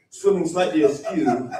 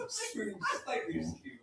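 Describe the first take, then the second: First: Said in the usual way. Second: Very soft, higher-pitched echo; hushed. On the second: Acted. Fish faking sick so couple won't pick it, hushed. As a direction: repeat it tiny and barely audible.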